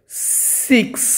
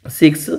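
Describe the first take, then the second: First: Breathy whisper, voice off; whispered six. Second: Said in the usual way. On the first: Shown as a demonstration. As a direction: whisper the word six as a soft unvoiced "siks". (Six ଫୁସ୍ଫୁସ୍ କରି କୁହ) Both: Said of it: "teacher repeating the word".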